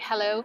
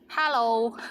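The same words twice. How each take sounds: First: It is said with an English accent. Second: It is said with a Cantonese accent.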